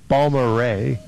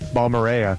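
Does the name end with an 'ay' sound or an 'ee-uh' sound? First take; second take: ay; ee-uh. First: The name ends with an 'ay' sound. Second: The name ends with an 'ee-uh' sound. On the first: The speaker calls it right. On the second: The speaker calls it wrong.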